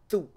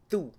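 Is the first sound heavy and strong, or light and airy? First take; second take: heavy; heavy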